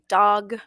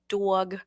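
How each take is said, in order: First: It is said in a plain, standard accent. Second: It is said in a New York accent. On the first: The speaker calls it right. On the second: The speaker calls it wrong.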